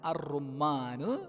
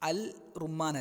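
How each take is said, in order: First: The l merges into a doubled r. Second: The article is pronounced with a clear l. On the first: The speaker calls it right. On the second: The speaker calls it wrong.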